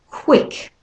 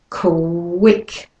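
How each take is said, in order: First: The word is said at a normal speed. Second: The word is said slowly and drawn out. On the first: "the second time normal pace" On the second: "I'll do the first time slowly"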